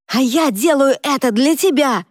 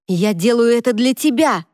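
First: «я» выкрикнуто высоко и громко; ответный крик, бьёт на «я»; крик с ударением на Я. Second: «тебя» выкрикнуто, ударное и падающее; бросить «Я делаю это для тебя», выделив «тебя»; ударение на ТЕБЯ. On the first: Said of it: "крикнул в ответ брат". (брат кричит в ответ Шейн, ударение на «я») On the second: Шейн кричит на брата. (Шейн кричит брату, ударение на «тебя») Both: Acted.

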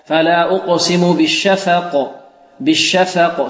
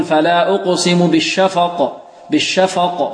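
First: "بالشفق" slowly with a thin, light "fa"; correct light fa. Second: "بالشفق" with the fa thickened, a dark vowel; wrong heavy fa. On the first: Teacher corrects the slip for students, light fa in "بالشفق". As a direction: keep the fa of "بالشفق" light, vowel fronted. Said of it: "هنا الفاء مرققة". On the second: Teacher mimics a reciter's slip for students, heavy fa in "بالشفق". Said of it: "إلى تفخيم الفاء، فيقول". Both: Shown as a demonstration.

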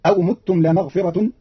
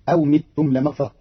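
First: Said in the usual way. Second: "متم" as mittum, i instead of u; kasra on the meem. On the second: Shown as a demonstration. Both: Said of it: "بكسر ضم الميم".

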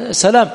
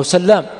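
First: سلام with one short L; single light L. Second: سلام with a long doubled L. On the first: Teacher showing how al-Bukhari cites it, single L in سلام. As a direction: say سلام lightly, L not doubled. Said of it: "أحيانا يذكره مخففا". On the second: Teacher showing the other citation, L doubled in سلام. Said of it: "أحيانا يذكره مشددا". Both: Shown as a demonstration.

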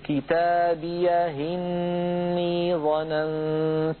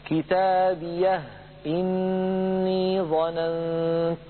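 First: كتابيه إني joined as kitabiyahinni, the kasra of إني carried onto the ha, slow chant; recited with transfer. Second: كتابيه held with silent final ha, then إني with its hamza, slow chant; recited without transfer. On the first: Teacher demonstrates Warsh's second way with the vowel carried over, slow recitation. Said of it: "فينقل إليها حركة الهمزة فيقول". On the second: Teacher demonstrates Warsh's first way, no vowel moved onto the ha, in slow recitation. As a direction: stop on the ha of كتابيه and start إني with a clean hamza, drawn out. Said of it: "فيقرأها هكذا".

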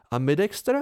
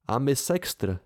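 First: "Ambidextr" with d, a playful wrong guess; word mix-up. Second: "Ambisextr" with a clear s in the middle, firmly correcting; correcting the word. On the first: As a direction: say "Ambidextr" with a clear d as Dena's slip. („Ambidextr“ vyslovené s d jako žertovný omyl) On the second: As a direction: stress the s in "Ambisextr" to fix her word. (opravné „Ambisextr“ s jasným s uprostřed) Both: A narrator's reading. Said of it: "opravil jsem jí".

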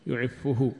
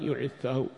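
First: يعفه with "u" on both fa and ha; damma on the fa. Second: يعفه with an "a" after the doubled f; fatha on the fa. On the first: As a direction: say يعفه as yu'iffuhu, "-ffuhu" at the end. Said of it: "يجوز الضم اتباعا لحركة الهاء". (يعفه بضم الفاء إتباعا لضمة الهاء) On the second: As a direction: say يعفه as yu'iffahu, "-ffa-" not "-ffu-". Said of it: "وفتح الفاء،". (يعفه بضم الياء وفتح الفاء المشددة) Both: Shown as a demonstration.

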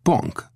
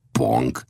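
First: Short, high-pitched remark. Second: Said in the usual way. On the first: Acted. Old Death remarks on what he sees, pitched up. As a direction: say it high and brief. Two speakers say one word.

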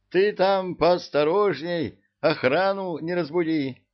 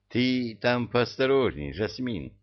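First: Higher, louder, pressing caution; urgent warning. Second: Said in the usual way. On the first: A narrator's reading.

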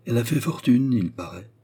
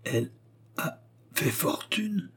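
First: Gossiping concierge. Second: Slow, soft question climbing high; broken by pauses, hushed disbelief; stupefied murmur. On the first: Gossip's statement, repeated in stupor. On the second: Léon repeats the concierge's news, slow stupefied murmur. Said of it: "murmura-t-il avec stupeur". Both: A narrator's reading.

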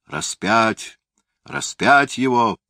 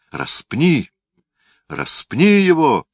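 First: Chanting crowd, rising to a yell; crowd shout. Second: High, loud mob roar; roaring crowd. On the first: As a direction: cry out like a mob. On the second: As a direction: bellow it like a furious crowd. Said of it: "снова заревела толпа". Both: A narrator's reading.

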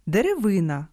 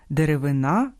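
First: Деревина with stress on the и, de-re-VY-na; stress on third syllable. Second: Деревина with stress on the final а, de-re-vy-NA; stress on last syllable. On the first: Host shows homograph for single tree, stress on VY. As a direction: punch the и of Деревина, leave the ending light. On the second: Host shows homograph for wood tissue, last-syllable stress. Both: Shown as a demonstration. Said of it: "а читаються по-різному".

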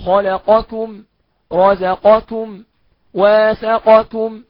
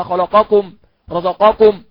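First: Slow, louder خلقكم with a light kaf; correct thin kaf. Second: خلقكم with a heavy emphatic kaf; common mistake. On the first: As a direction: keep the ك thin after the ق. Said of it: "أقول". (نطق صحيح بترقيق الكاف) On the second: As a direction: imitate the wrong heavy kaf in رزقكم. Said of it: "أخطاء كتيرة جدًا شائعة". (تقليد الخطأ بتفخيم الكاف) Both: Shown as a demonstration.

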